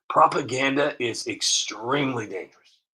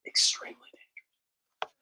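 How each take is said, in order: First: Said in the usual way. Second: A hushed, ominous echo; whispered warning. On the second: Shown as a demonstration. Vlogger warns viewers, repeating it in a hushed whisper.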